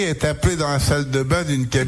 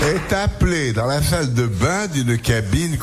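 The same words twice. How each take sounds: First: It is said at a normal, ordinary pace. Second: It is said in a lively, camp, playful voice.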